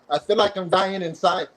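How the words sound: It is said in a happy, giddy tone.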